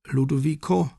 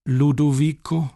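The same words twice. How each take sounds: First: Put-on high, trembling frail old lady; shaky old woman. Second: Put-on sweet old lady. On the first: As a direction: call his name like a confused old woman. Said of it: "sagte sie mit zittriger Stimme". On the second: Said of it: "sagte sie noch einmal". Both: A narrator's reading.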